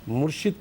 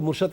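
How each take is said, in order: First: The vowel before the final d is 'i'. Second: The vowel before the final d is 'a'. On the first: The speaker calls it right. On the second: The speaker calls it wrong.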